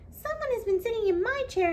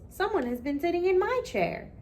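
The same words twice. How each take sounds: First: It is said in a high, squeaky little voice. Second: It is said in a big, loud, booming voice. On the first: "cried with a squeaky little voice" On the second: "roared with a big booming voice"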